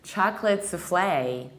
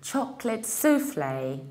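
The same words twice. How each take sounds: First: The stress is on the second syllable. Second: The stress is on the first syllable. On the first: This is the American pronunciation. "In the American accent, ... stressing the second syllable" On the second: This is the British pronunciation. "In the British accent, we stress the first syllable"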